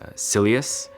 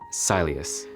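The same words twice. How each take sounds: First: It sounds like the word silliest. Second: It does not sound like silliest.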